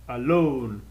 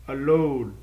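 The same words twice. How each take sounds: First: The stress is on the last syllable. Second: The stress is on the last syllable.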